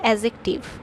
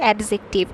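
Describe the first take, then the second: First: The d sound is left silent. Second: The d sound is clearly pronounced. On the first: The speaker calls it right. "Actual উচ্চারণ হবে অ্যাডজেক্টিভ। ... ডিটা অনুচ্চারিত থাকবে" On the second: The speaker calls it wrong. "যেহেতু ডি আছে, A ডি, তাই আমরা এটাকে উচ্চারণ করি অ্যাডজেক্টিভ"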